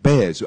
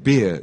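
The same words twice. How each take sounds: First: Bears with an open "air" vowel. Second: Beer with an "ee" glide, as in ear; close vowel. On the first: Host models for learners, Bears with "air" vowel. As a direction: say Bears to rhyme with chairs. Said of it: "pronouncing E and A". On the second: Host models for learners, Beer with "ear" vowel. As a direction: say Beer to rhyme with near. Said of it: "That's a beer". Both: Shown as a demonstration.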